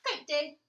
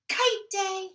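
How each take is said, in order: First: Said in the usual way. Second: Joyful shout, higher and louder. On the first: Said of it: "title announced before reading". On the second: Acted. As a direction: call it out with delight. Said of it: "and then he shouted".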